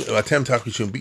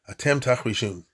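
First: It is said in a sharp, annoyed tone. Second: It is said in a calm, gentle tone. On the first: The listeners are being told off to be quiet. "hey, what do you mean?" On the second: The listeners are being promised something wonderful. "if you want to read it in a nice way, then you say like this"

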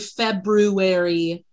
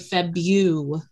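First: The first r is clearly pronounced. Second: The first r is left out. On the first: This is how the word is spelled in the head. "I say February when I'm spelling it" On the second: This is how the word is said in everyday speech. "But when I'm saying it, I say February"

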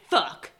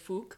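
First: The word is said in a harsher, blunter way. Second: The word is said in a softer, less harsh way. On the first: It comes across as angry and aggressive. "whereas if we say fuck, we're just like, fuck" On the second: It comes across as funny but still tough. "he says fook. And so it sounds less harsh"

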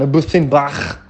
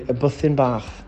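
First: The final ch sound is harsh and throaty. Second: The final ch sound is soft and light. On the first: The speaker calls it wrong. "Not like a German, ... Maybe too hardcore" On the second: The speaker calls it right. "It's got to be light"

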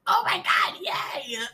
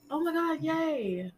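First: It is said with genuine, big excitement. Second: It is said flatly, with mild enthusiasm.

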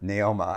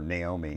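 First: The name ends with an 'ah' sound. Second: The name ends with an 'ee' sound. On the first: The speaker calls it right. "she pronounced it Naoma" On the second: The speaker calls it wrong. "we get really upset if people called her Naomi"

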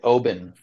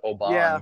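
First: The name is said the Scottish way. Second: The name is said as it is spelled. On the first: This is how locals say the name. "you're pronouncing it Oban, which sounds like that's probably how it's actually pronounced in Scotland" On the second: This is how most bartenders say the name. "everybody calls it Oban because that's how it looks like it's spelled"

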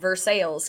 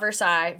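First: The name is said with an anglicized pronunciation. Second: The name is said with a French-style pronunciation. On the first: This is how the local town is named. The speaker calls it right. "So we're just good old Versailles" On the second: This is how the French palace is named. The speaker calls it wrong. "not Versailles"

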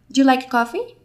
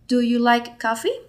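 First: Do and you blend together quickly. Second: Each word is said carefully and separately.

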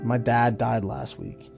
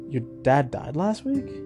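First: The voice falls at the end. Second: The voice rises at the end.

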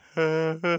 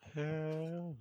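First: It is said louder, with more energy. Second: It is said low and quietly.

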